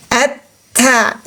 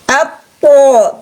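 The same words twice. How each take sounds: First: "At-ta" with light, thin ta, tongue back lowered. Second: "Apo" drawn out, heavy emphatic t with o colour; thick THO. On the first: Teacher showing istifal of ta, "At-ta" kept thin. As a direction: say "At-ta" without any o colour. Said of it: "tipis karena istifalnya". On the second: Teacher showing istila, slow thick "Apo". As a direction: say "Apo" slowly with tongue back raised, thick sound. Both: Shown as a demonstration.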